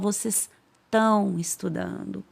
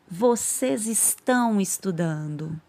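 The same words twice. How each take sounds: First: The words are clipped and run together. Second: Every word is said in full. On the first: This is the quick everyday form. "A gente geralmente fala" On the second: This is the careful, complete form. "A gente não fala assim, é o correto"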